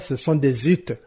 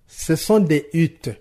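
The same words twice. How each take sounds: First: A z sound links des to huttes. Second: Des and huttes are said without a link. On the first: The speaker calls it wrong. "On ne dira pas" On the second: The speaker calls it right. "Même chose"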